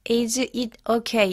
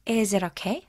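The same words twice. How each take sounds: First: The words are said separately without linking. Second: The words run together in one linked stream. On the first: The speaker calls it wrong. "is it okay가 아니고" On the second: The speaker calls it right. "자연스럽게 연음이 되면서"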